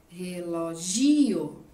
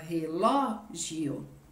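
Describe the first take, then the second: First: The stress falls on the syllable gi. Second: The stress falls on the syllable ló. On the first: The speaker calls it wrong. "Vamos falar de outro jeito? ... Ela seria uma paroxítona" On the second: The speaker calls it right. "porque a gente fala relógio"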